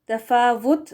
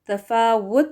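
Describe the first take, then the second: First: The middle consonant is a v sound. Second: The middle consonant is a rounded w sound. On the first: The speaker calls it wrong. "वी लगाकर पढ़ना गलत होगा" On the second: The speaker calls it right. "डब्ल्यू के साथ वो करेक्ट है"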